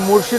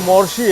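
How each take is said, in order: First: The first vowel is an 'u' sound. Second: The first vowel is an 'o' sound. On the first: The speaker calls it wrong. "ये मुर्शी नहीं" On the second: The speaker calls it right. "मोर्शी है"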